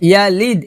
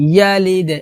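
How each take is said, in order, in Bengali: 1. শেষের d ঝাঁকুনি ছাড়াই সোজা থেমে যায়। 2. শেষের d একটা স্পষ্ট প্রতিধ্বনিত ঝাঁকুনি দিয়ে শেষ হয়। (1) "ইয়ালিদ এটা হবে না" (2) "কারণ দাল কলকলা হরফ কলকলা করতে হবে"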